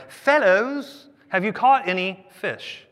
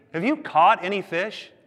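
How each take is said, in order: First: High, loud hail easing into the question; calling out. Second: Teasing question, pitched up; zinging. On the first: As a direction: hail fishermen from the shore. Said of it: "He called out". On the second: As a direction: ask it knowing the answer is no. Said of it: "knows how to zing people". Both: Acted.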